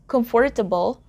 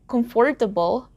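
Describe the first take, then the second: The two takes are said the same way.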